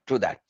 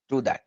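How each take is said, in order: Both takes have the same delivery.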